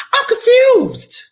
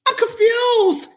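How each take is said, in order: First: High, slow whispered confusion; mock whisper. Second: High, slow crying shout; mock wail. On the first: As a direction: breathe it out in disbelief. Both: Exasperated commentary.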